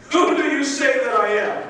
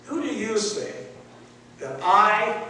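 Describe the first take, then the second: First: I am lifted and pressed; stress on I. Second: Said in the usual way. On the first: Shown as a demonstration. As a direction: lean hard on I. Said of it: "very emphatically pointing towards him". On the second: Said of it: "the word "I".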